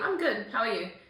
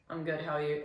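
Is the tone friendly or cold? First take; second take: friendly; cold. First: It sounds warm and friendly. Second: It sounds flat and cold.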